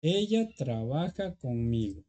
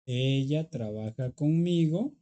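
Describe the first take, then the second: First: Said in the usual way. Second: "conmigo" rising at the end as a question; slow, ask it with a lifted end on "conmigo"; same sentence turned into a question by tune alone. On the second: Shown as a demonstration. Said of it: "Ahora yo quiero preguntar".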